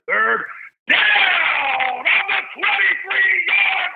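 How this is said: It sounds big, stretched, with the voice going up.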